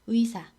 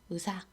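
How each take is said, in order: First: The first vowel is the diphthong 'ui'. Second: The first vowel is the plain vowel 'eu'. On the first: "의사 아니라" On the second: "의를 으로 발음하는 경향"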